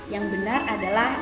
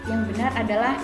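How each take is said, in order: No difference in how they are said.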